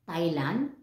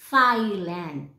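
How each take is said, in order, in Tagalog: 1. Hindi nasa unang pantig ang diin. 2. Nasa unang pantig ang diin. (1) "instead of saying Thailand" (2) "nandun yung stress sa first syllable"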